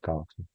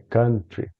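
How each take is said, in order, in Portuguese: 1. A primeira vogal soa como 'cow'. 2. A primeira vogal soa como 'cup'. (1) "todo mundo tá falando errado que fala country" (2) "não é assim. É country"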